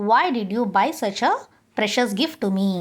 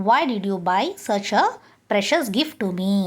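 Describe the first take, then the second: The two takes are said the same way.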